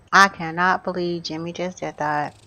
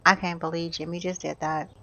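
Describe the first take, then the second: First: CANNOT spelled out in full, firmly; weight on CANNOT, low and measured; emphatic disbelief. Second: Low, soft dismay; subdued disbelief. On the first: Gamer restates shock at Jimmy, stressing CANNOT. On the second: Gamer reacts to Jimmy leaving, subdued disbelief. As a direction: say it quietly, let down. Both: Real, not acted.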